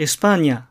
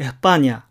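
First: The syllable-final s is pronounced clearly. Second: The syllable-final s is weakened to a breathy h.

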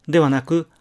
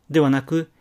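The two takes are said the same way.

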